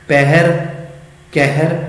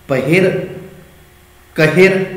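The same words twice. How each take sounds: First: ਪਹਿਰ, ਕਹਿਰ with an open ai vowel, pɛhɛr; ਪਹਿਰ and ਕਹਿਰ said with the dulavan sound; by the rule. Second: ਪਹਿਰ, ਕਹਿਰ read as spelled, short a, pəher; ਪਹਿਰ and ਕਹਿਰ with a plain short first vowel; read as written. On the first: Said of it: "Gurmukhi ਲਿਪੀ ਦਾ ਜਦੋਂ ਨਿਯਮ". (ਨਿਯਮ ਅਨੁਸਾਰ ਦੁਲਾਵਾਂ ਵਾਲਾ ਉਚਾਰਨ) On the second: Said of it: "ਲਿਖਤ ਮੁਤਾਬਕ ਅਸੀਂ ਉਚਾਰਨ ਕਰਾਂਗੇ". (ਲਿਖਤ ਮੁਤਾਬਕ ਉਚਾਰਨ) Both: Shown as a demonstration.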